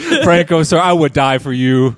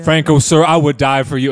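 First: It is said in an Irish accent. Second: It is said without an Irish accent.

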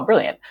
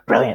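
First: The word is said lightly and casually. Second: The word is said with strong intensity. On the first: A plan is simply fine and welcome. "maybe it's just the casualness of it" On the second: Something is truly extraordinary. "it's an intense word in American English"

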